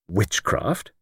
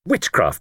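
First: "Witchcraft" rising, softer, as a question; questioning echo. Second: "Witchcraft" stated with a falling tune; stated answer. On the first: Luke queries his friend's suggestion, "Witchcraft" rising in puzzlement. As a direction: echo "Witchcraft" back in doubt. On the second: Jimmy gives the reason for going there, "Witchcraft" falling. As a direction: announce "Witchcraft" as a settled answer. Confident answer, echoed as question. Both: Acted.

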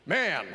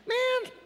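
First: Said in the usual way. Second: Very high shocked "man"; shocked Jesus. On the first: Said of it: "how else would he say it". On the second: Shown as a demonstration. Jesus to the man in the crowd, shocked squeak. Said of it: "That's my Jesus shocked voice".

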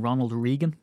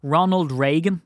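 First: "Reagan" as REE-gan; long "ee" in "Reagan"; correct pronunciation. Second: "Reagan" as RAY-gan, higher and louder; long "ay" in "Reagan"; usual mispronunciation. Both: Shown as a demonstration. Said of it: "really his name should have been".

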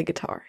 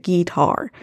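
First: Said in the usual way. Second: "guitar" as GEE-tar, stress up front; country "guitar". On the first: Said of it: "He didn't say guitar". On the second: Shown as a demonstration. Podcaster correcting listeners on [name]'s word, "guitar" as GEE-tar. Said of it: "He didn't say guitar. He said guitar".

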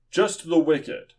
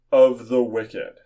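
First: Just the wicked with the word the raised, then a falling close; stress on the. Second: Of the wicked with the word of hit loud and held; stress on of. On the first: Preacher narrowing Job's words down, stressing the. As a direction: set the word the apart as the point. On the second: Preacher pointing out a small word to the congregation, hitting of. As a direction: lean hard on of, then let the wicked fall away. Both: Shown as a demonstration.

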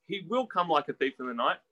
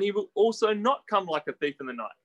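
First: "will" stressed, tune left rising at the end. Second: "not" stressed, tune falling at the end. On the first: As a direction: lean on "will" as the affirmed answer. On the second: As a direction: lean on "not" as the opposite answer. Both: Shown as a demonstration. Sets two answers against each other.

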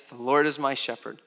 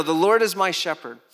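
First: Said in the usual way. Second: Said out loud and strong; proclaimed. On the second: Shown as a demonstration. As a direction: declare it boldly.

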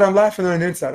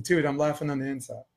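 First: Higher, firmer comeback; repeated retort. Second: Soft, understated comeback; dry retort. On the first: Man repeating himself to the challenging teen, raised and pointed. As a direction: say it up so he hears it this time. Repeats it after "What'd you say?. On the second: Man to the teen who called him funny, quietly dry. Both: Retold or imitated.

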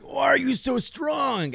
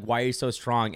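First: High, slow hammed-up yell; mock shout. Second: Said in the usual way. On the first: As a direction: wail it out in mock disbelief. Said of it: "I'm like". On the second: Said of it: "open my mouth and be like".

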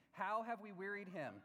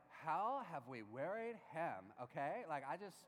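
First: Said in the usual way. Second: Put-on slow, drawn-out Valley girl voice. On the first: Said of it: "how I think the Hebrew reads". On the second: Pastor voicing the people's complaint as a slow Valley girl. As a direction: play it like a baffled Valley girl, stretching each word. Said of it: "Like a Valley girl would be like".

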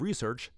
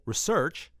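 First: Said in the usual way. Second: Research with the second syllable punched and rising; stress on second syllable. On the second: Shown as a demonstration. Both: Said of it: "bonus points for emphasis on the second syllable".

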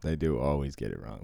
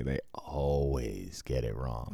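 First: Said in the usual way. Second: "always" stretched long, low and slow; slow, lower, softer line, dragging out "always"; drawn-out emphasis on "always". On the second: Shown as a demonstration. Telling co-host they get it wrong consistently, "always" drawn out. Repeats it slowly to underline consistency.

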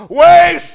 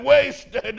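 First: Much higher and louder, a cry of despair; anguished scream. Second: Retold sob, higher and a bit louder; mock sobbing. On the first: Retold or imitated. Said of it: "He just screamed out". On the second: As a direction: sob the word out, mildly acted. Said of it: "Then he sobbed and said".

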